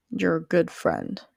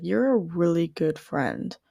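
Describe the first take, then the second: First: Good leaned on, slow and deliberate; stress on good. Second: Said in the usual way. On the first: Retold or imitated. Stranger at the deli repeats her praise, stressing good. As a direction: hit the word good to mean it. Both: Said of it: "she really emphasized the word good".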